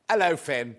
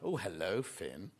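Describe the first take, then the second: First: It is said plainly, with no extra meaning. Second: It is said with a knowing, suggestive slant.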